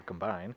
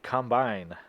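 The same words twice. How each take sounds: First: "Combine" with the weight on the second syllable, com-BINE; verb pronunciation. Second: "Combine" stressed on the first syllable, COM-bine; noun pronunciation. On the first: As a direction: say "Combine" as the verb, softly unsure. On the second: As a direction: say "Combine" like the farm machine. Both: Real, not acted. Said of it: "No, it's Combine".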